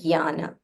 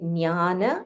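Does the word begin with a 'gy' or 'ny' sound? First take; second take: gy; ny. First: The word begins with a 'gy' sound. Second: The word begins with a 'ny' sound. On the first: "in Sanskrit or in Hindi you can say Gyana" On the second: "So in Tamil we have Nya. So for me Nya is more comfortable"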